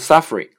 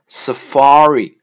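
First: The stress is not on the middle syllable. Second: The stress is on the middle syllable. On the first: The speaker calls it wrong. "所以它不是Safari" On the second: The speaker calls it right. "它的重音呢是在F 上的"

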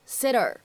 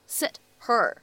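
First: The words are linked with a flapped t. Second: The two words are said separately with a clear t.

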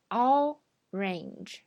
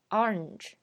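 First: Both syllables are fully pronounced. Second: The word is squeezed into one syllable. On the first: This is how it is usually taught in school. "我们平时这么念" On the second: This is how Americans often say it. "在美语中呢经常会念成orange"

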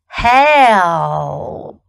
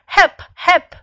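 First: The L sound in the middle is pronounced. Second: The L sound in the middle is dropped. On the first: The speaker calls it right. "必须要把中间的L 也发出来。Listen to me" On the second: The speaker calls it wrong. "中间有一个L，经常被人省略掉，有人会说help"

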